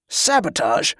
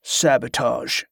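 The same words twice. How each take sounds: First: Sharp, disdainful query; incredulous distaste; disgusted question. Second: Slow, understated interjection; another voice. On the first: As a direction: echo it with a curled lip. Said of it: "his lip curled in disgust". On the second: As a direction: drop it in slowly and evenly. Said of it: "came another voice". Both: A narrator's reading.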